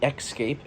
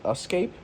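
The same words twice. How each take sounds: First: The word starts with an 'ex' sound. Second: The word starts with an 'es' sound. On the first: The speaker calls it wrong. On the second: The speaker calls it right.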